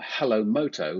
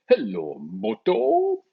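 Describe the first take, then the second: First: It is said in a plain, ordinary voice. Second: It is said in a stylized advert voice.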